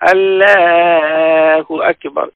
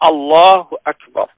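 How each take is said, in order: First: The start of Allah is drawn out long. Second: The start of Allah is said quickly. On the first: The speaker calls it wrong. "অশুদ্ধ।" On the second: The speaker calls it right. "এটি খুব দ্রুত তাড়াতাড়ি এটি করতে হবে।"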